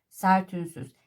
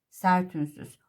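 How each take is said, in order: The two takes are said the same way.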